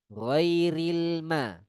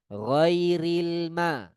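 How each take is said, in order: No difference in how they are said.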